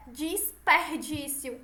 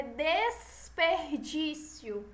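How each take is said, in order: First: "desperdício" said slowly as "disperdício"; first syllable "dis" in "desperdício"; wrong I for E. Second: "desperdício" slowly, with clear "des"; careful corrected "des-per-dício"; correct E sound. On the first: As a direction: demonstrate the slip "disperdício" for "desperdício". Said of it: "Não é". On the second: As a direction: stretch out "desperdício", E in the first syllable. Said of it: "é desperdício". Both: Shown as a demonstration.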